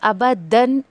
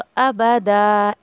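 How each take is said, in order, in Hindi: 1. शब्द का अंत n की ध्वनि से होता है। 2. शब्द का अंत लंबे a की ध्वनि से होता है। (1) "अबदन ऐसे आपको नहीं पढ़ना है" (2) "अगर आप रुक रहे हैं तो फिर आपको अबदा ऐसे करना है"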